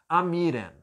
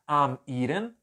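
First: The words run together with no break. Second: A short pause separates the two words. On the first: The speaker calls it right. "eu pronuncio como se elas estivessem juntas" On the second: The speaker calls it wrong. "Você pode até fazer separada essa aqui... olha a pausa que fica"

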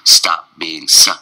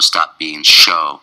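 First: The last word starts with a clean S sound. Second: The last word starts with an SH sound. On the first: The speaker calls it right. "clean S again" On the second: The speaker calls it wrong. "don't go stop being show"

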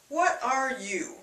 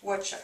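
First: The phrase is said slowly with every word full. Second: The phrase is squeezed into two quick syllables. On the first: "begins with what are you?" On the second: "The fastest one you'll hear"

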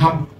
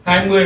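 First: It is said fast, merged into one syllable. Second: It is said slowly as two full syllables. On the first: "đọc thật nhanh thì nó sẽ thành hăm" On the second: "20 mà đọc thật nhanh"

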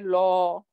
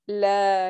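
First: The L sound is heavy and full. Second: The L sound is light and thin. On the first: The speaker calls it wrong. "We don't say law" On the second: The speaker calls it right. "that is very light word"

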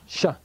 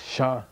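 First: The syllable is said on a high pitch. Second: The syllable is said on a low pitch. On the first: "high tone" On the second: "low tone"

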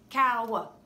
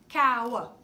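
Both takes have the same delivery.

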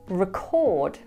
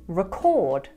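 Both takes have the same delivery.

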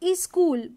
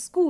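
First: It is said with an Indian English pronunciation. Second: It is said with a British English pronunciation. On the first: "in many places we say school" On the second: "the pronunciation that comes with Britishers is school"

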